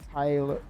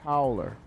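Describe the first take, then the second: First: The first syllable sounds like 'tie'. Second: The first syllable sounds like 'tow'. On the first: The speaker calls it wrong. "I think it's not Ty" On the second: The speaker calls it right. "It's Tow, Tow"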